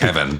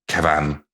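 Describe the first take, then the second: First: The second syllable is plain and reduced. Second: The second syllable is given a clear hit. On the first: "rather than just" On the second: "it's got a bit of a hit on it"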